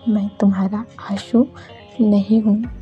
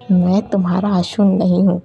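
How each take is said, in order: First: It is said very softly and quietly. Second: It is said in an angry tone.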